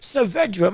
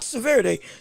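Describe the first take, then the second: First: The name ends in a 'dra' sound. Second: The name ends in a 'de' sound. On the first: The speaker calls it right. "Saavedra, not Saverde. Saavedra. My apologies" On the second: The speaker calls it wrong. "not Saverde"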